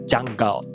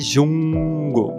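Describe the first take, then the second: First: The word starts with a dj sound. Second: The word starts with a soft zh sound. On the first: The speaker calls it right. "é ja, ja, ja, ja, jungle" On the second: The speaker calls it wrong. "Selva não é jungle"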